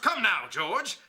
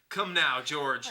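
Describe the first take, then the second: First: It is read in a comic British accent. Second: It is read in the speaker's ordinary accent.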